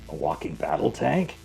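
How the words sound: It ends with a rise, like a question.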